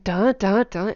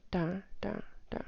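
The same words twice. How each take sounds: First: Loud, punched "da, da, da"; emphatic "da, da, da", each one separate; over-stressed syllables. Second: Quiet, light "da, da, da"; understated "da, da, da"; de-stressed syllables. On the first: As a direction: hit every "da" hard with a clear rise. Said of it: "I'm not saying". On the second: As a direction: drop "da, da, da" softly without emphasis. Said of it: "I'm not saying da, da, da". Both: Shown as a demonstration.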